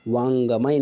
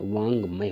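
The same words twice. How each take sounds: First: वांगमय split as vaan-ga-mai; wrong form. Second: वांगमय joined as vaang-may; correct form. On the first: Teacher citing the error, वांगमय with full ga. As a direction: sound a full ga in वांगमय, louder. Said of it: "गमय नहीं होता है". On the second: Teacher correcting it, वांगमय without separate ga. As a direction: run ng straight into may in वांगमय. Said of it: "वांगमय होता है". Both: Shown as a demonstration.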